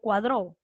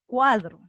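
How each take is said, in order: First: The stress is on the last syllable. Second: The stress is on the first syllable. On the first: The speaker calls it wrong. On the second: The speaker calls it right.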